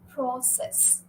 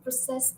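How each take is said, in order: First: The stress is on the first syllable. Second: The stress is on the second syllable. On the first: It is used as a noun. "if you're talking about a noun, then you'll stress the first syllable" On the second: It is used as a verb. "if you're going to use the word as a verb, then you'll stress the second syllable"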